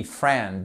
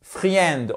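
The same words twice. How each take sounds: First: Friend dit « frènd », le i muet; correct pronunciation. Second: Friend dit « fri-ènd », le i prononcé à tort; wrong pronunciation. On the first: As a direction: friend said as one syllable, no i. (friend prononcé « frènd », sans le i) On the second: (friend prononcé « fri-ènd », avec le i) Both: Shown as a demonstration. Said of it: "on ne prononce pas le i".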